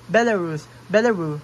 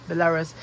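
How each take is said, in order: First: Belarus said louder and dropping the final S, as the guy did; Belarusian pronunciation. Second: Said in the usual way. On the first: Retold or imitated. Imitating a Belarusian guy saying Belarus, no S. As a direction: copy the local way: Belarus without the S. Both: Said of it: "pronounced it like he's from Belarus".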